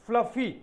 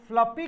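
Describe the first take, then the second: First: फ्लफी, second syllable starting on F; correct pronunciation. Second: फ्लपी with a hard P sound in the middle; फ्लपी, the F swapped for a P; common mispronunciation. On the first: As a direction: say फ्लफी with F, not P. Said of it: "इसका pronunciation भी सही करना चाहिए". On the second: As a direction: say फ्लपी with P in place of F. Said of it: "कई बार लोग फ्लपी कहते हैं". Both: Shown as a demonstration.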